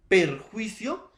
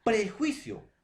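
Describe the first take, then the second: First: "perjuicio" slowly, with "per" at the start; high, drawn-out "perjuicio", rising at the end; careful demonstration. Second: "prejuicio" with "pre" at the start; high-pitched "prejuicio", falling at the end; careful demonstration. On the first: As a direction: sound out "perjuicio" clearly, R after the E. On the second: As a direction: sound out "prejuicio" clearly, R before the E. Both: Shown as a demonstration. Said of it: "Escuchen bien".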